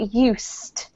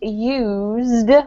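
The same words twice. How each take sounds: First: The word is said with a hissing S sound. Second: The word is said with a buzzing Z sound. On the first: It means something was habitual or familiar. "used with an S" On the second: It is the verb meaning to make use of something. "used with a Z"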